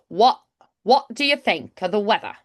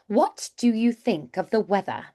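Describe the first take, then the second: First: It is said in a Cockney accent. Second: It is said in standard British, crisp T.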